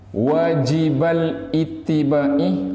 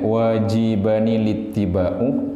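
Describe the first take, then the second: First: It has no n sound after 'wajiba'. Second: It has an 'nil' sound after 'wajiba'. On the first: The adjective is joined to its noun in a possessive construction. "Kalau wajibal ittiba'i berarti min idhofatil mausuf" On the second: The word stands as a separate describing adjective. "keluar tanwin pakai nun kasroh"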